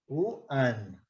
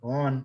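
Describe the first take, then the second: First: The word starts with a clear w sound. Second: The word is relaxed, sounding like on. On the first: The speaker calls it right. "sempre lembrando que é one" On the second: The speaker calls it wrong. "relaxando com on"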